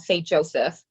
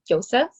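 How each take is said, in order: First: The name is said the common, non-Austrian way. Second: The name is said the Austrian way. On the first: This is how many people say it. "some people, you know, say Joseph" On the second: This is how people in his home country say it. "he's from Austria, so I think they pronounce it as Joseph"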